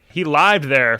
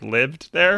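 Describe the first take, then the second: First: Lived is said with a long 'eye' vowel. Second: Lived is said with a short 'ih' vowel. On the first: The speaker calls it wrong. "he'd be like" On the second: The speaker calls it right. "instead of like"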